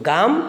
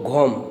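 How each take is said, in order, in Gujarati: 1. સ્વર ખુલ્લો 'aa' અવાજ છે. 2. સ્વર ગોળ 'o' અવાજ છે.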